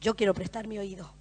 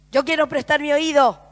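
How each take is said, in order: First: Said in the usual way. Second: Higher and louder, a firm declaration; preacher repeating the vow with force. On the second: Acted. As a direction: proclaim it as your own vow. Repeated line, louder take.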